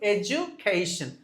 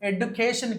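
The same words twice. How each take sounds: First: The word is said without a d sound. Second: The word is said with a d sound. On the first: The speaker calls it right. "You need not pronounce the letter D here" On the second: The speaker calls it wrong. "ఎడ్యుకేషన్ కాదు"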